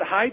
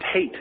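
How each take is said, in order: First: The name has the vowel sound of 'kite'. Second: The name has the vowel sound of 'late'. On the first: "Is he pronounced it height?" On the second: "I've always heard it pronounced hate"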